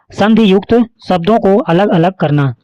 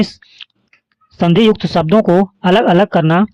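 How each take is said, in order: First: Said in the usual way. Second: Slower, stressing युक्त; slow emphatic repeat. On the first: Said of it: "संधि विच्छेद का अर्थ है". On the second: Shown as a demonstration. Teacher repeating the definition slowly for students to memorise. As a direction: drill it in slowly so it sticks. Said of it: "संधि विच्छेद का अर्थ क्या है?".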